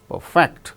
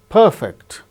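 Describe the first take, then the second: First: The stress is on the second syllable. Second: The stress is on the first syllable. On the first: It is used as a verb. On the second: It is used as an adjective.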